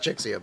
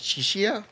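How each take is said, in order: First: The middle consonant sounds like 'ks'. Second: The middle consonant sounds like 'sh'. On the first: The speaker calls it wrong. "it's not Chixia" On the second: The speaker calls it right. "I think is the correct pronunciation for her name"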